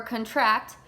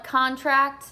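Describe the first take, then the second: First: "contract" said conTRACT, as the verb; stress the second syllable. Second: "contract" said CONtract, as the noun; stress the first syllable. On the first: Teacher to class, showing the verb, stress on -TRACT. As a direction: lean on the end of "contract". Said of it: "And then contract means, like, to get". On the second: Teacher to class, showing the noun, stress on CON-. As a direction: lean on the start of "contract". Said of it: "So contract is, like, a s-, a legal document". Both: Shown as a demonstration.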